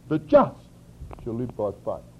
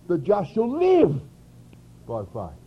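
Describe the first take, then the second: First: The word 'just' carries the emphasis. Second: The word 'live' carries the emphasis. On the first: The point is being made righteous. "reading it from Galatians, we would read it like this" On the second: The point is having life rather than death. "where the question was life or death"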